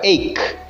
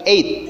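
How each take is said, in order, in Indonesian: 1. 'gh' dibaca sebagai konsonan. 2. 'gh' diam, tidak dibaca. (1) "G H tidak dibaca, jadi bukan ache" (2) "tapi eight"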